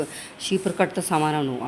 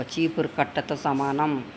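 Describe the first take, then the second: First: Said in the usual way. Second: "చీపురు" stressed, the phrase said slowly; slow emphatic repeat. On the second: Shown as a demonstration. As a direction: spell out "చీపురు కట్టతో సమానం" slowly for weight. ("చీపురు" ని నొక్కి, నెమ్మదిగా)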